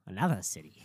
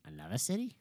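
First: Flat Boston accent, falling. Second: Said in the usual way. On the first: Real, not acted. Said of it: "Whipping out her Boston accent".

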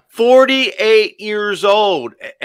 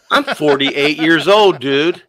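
First: Put-on Forty-eight years old drawn out very slowly, much higher and louder; stretched emphasis. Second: Forty-eight stressed, louder and higher; emphatic age. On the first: Husband repeating his age in disbelief, very slow and high. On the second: Retold or imitated. Husband stressing his age to the listeners, emphatic. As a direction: lean on forty-eight in disbelief. Stunned by his wife's question.

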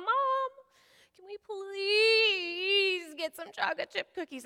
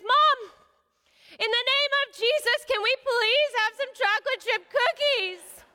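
First: Put-on high, slow, teary child's whine; whiny kid plea. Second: Put-on high, loud, slow kid's proclamation; bold child's plea. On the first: Daughter begging mom for cookies, high and whiny. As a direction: beg in a drawn-out little voice. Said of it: "so she asks her mom". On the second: Daughter invoking Jesus for cookies, loud and high. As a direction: declare it like a little preacher. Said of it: "and so she says".

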